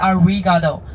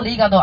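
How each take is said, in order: First: The second consonant is a strong English r. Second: The second consonant sounds close to an l. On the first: The speaker calls it wrong. "I don't want to hear anyone say arigato" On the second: The speaker calls it right. "you gotta make sure your pronunciation is right"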